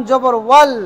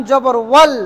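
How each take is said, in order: The two takes are said the same way.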